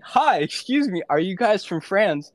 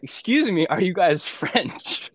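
First: Much higher, louder, tentative question; addressing a suspicious French couple, high and nervous; nervous polite ask. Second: High, slow and overly polite; awkward late-night approach, slowed and pitched up; timid polite ask. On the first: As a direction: pipe up nervously at a stranger. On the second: Approaching strangers at 3 AM. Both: Retold or imitated.

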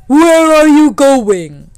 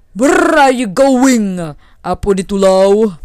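First: Booming, high, drawn-out demand; loud, very slow challenge, pitched high; challenging lightning. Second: Loud, drawn-out rumbling demand; booming, slow challenge; challenging thunder. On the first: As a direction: call it out slowly as the mighty lightning. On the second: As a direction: call out slowly as the mighty thunder. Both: Acted.

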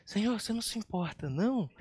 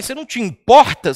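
First: Soft, fast, timid asking; the polite version nobody really used; meek mock question. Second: Loud, sharp reproach; accusing question. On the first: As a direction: ask it sweetly, almost apologizing. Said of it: "Eu não acho que ela chegou pra Jesus e falou assim". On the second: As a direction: throw the question like a complaint. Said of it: "quando você fala pra alguém". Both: Shown as a demonstration.

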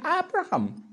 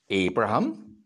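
First: "Abraham" starting with a short open "ah"; soft A. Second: Said in the usual way. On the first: Shown as a demonstration. Minister showing how Zambians said it, "Abraham" with a soft A. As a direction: say "Abraham" as AB-ra-ham, no long A. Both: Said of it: "people liked soft A's".

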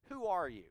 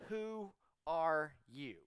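First: Said in the usual way. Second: Slow, word-by-word question; direct question. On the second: Acted. Pharisees' entourage questioning John, slow and direct. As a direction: draw out each word of WHO ARE YOU, evenly spaced. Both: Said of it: "They ask this very direct question".

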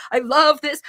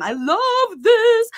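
First: Said in the usual way. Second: High, slow gush of delight; excited. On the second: Real, not acted. Coach gushing over a mom's win, thrilled. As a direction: squeal it with real joy. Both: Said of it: "I'm just getting excited".

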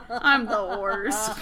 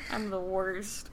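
First: Britta. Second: Laughing self-mock. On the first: Retold or imitated. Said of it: "I'm Britta from Community". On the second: Real, not acted.

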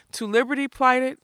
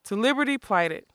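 First: High puzzled question, unlike the narrator's voice; the giant, stumped, asking. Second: Said in the usual way. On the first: A narrator's reading. Giant fumbling the password. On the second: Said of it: "Thank ye".

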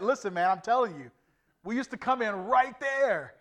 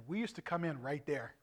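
First: Louder, higher retelling of an argument; insistent. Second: Said in the usual way. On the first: Retold or imitated. Preacher replays arguing with a doubting guide, loud insistence. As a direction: insist on it, raising your voice. Insists after being told he's wrong.

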